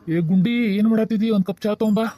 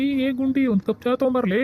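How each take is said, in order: First: Raised-voice summons to someone in another room; slightly raised, casual call. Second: High-pitched call to someone who hasn't heard; insistent high call across the house. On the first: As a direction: call across the house for tea. Husband calls wife for tea. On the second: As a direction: repeat the summons, pitched up to carry. ಅಲ್ಲಿಕಿನ್ನ ಕೇಳವಲ್ದು. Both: Acted.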